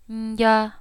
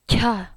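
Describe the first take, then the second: First: The syllable is quieter and softer. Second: The syllable comes with a strong puff of air. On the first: "I'm going to say it softer" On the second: "that's how the aspiration sounds like. Lots of air"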